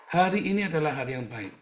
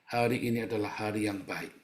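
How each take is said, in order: First: Rising proclamation. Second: Said in the usual way. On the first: Acted. Repeated as a proclamation.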